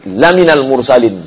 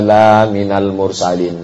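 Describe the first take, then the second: First: The first vowel after the l is short. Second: The first vowel after the l is long. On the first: You are truly one of the messengers. "kalau dibaca lamnya pendek" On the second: You are not a messenger. "Tapi kalau dibaca panjang"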